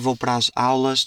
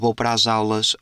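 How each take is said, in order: First: A short pause separates 'as' and 'aulas'. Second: An extra j-like glide joins 'as' and 'aulas'. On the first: "Se eu falar com calma, eu tento dar ali uma pausa" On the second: "eu acrescento sempre um jota"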